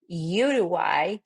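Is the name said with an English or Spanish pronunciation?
English. The name is said with English vowel sounds. The speaker calls it wrong. "we don't say Uruguay"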